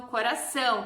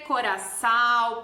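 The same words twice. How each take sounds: First: "coração" com final ÃO nasalizado; som nasal do til. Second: "coração" dito "coraçau", com A oral aberto; pronúncia errada sem til. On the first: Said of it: "aquele A tem som de ã". (pronúncia nasal, com til) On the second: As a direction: troque o ÃO de "coração" por AU. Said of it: "eu não vou dizer coração". (final oral, sem nasalizar) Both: Shown as a demonstration.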